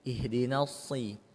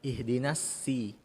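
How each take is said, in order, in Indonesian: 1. Bunyi s itu tebal dan berat. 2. Bunyi s itu tipis dan ringan. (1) "diucapkan dengan tahan tebal" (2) "jangan sampai"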